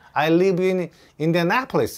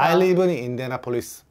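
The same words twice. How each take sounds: First: The stress falls on the 'na' syllable. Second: The stress does not fall on 'na'. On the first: Listeners understand the city name. The speaker calls it right. "이렇게 말해야지 정확하게" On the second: Listeners fail to understand the city name. The speaker calls it wrong. "이렇게 말하면은 What? 이러면서 못 알아듣는 거야"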